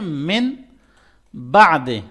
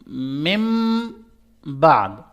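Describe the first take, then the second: First: The first word ends with a clear n sound. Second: The first word ends with an m sound. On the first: The speaker calls it wrong. "लेकिन ये गलत है।" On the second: The speaker calls it right. "मिम पढ़ेंगे, मिन नहीं पढ़ेंगे।"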